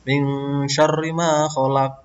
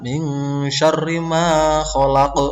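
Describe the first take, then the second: First: The final q stops flat without a bounce. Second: The final q ends with a bouncing echo. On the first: The speaker calls it wrong. "Tidak boleh membaca ... Kurang ini" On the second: The speaker calls it right. "yang benar"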